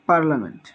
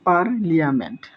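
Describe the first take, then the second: First: The middle is said as a single 'la' sound. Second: The middle is said as separate 'li-a' sounds. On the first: It is the usual way to say it. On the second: It is a memory aid for the spelling.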